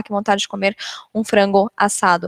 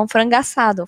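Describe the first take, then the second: First: "frango assado" with a clear break between the two words; careful unlinked "um frango assado"; words kept apart. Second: "frango assado" run together, the final o of "frango" merging into "assado"; natural linked "um frango assado"; linked speech. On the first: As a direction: say "frango" and "assado" separately, no linking. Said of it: "eu não vou falar". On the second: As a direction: glide "frango assado" into one sound, like frangassado. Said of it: "Eu vou falar". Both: Shown as a demonstration.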